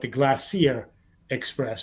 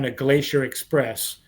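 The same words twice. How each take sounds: First: Glacier is said the British way. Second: Glacier is said the American way.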